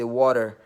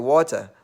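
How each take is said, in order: First: "water" with the T softened to a D, "wah-der"; North American pronunciation. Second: "water" with a clear T, as "waw-tah"; African pronunciation. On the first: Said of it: "it sounds like a D to me". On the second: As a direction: say "water" the African way, crisp T in the middle. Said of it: "in Africa, we call it water". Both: Shown as a demonstration.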